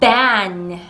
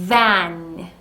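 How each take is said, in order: First: The first sound is a popped lip sound. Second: The first sound is a long buzzing hiss. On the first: The speaker calls it wrong. "울리는 소리 B로 잘못 내는" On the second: The speaker calls it right. "으 소리에다가 단모음 A"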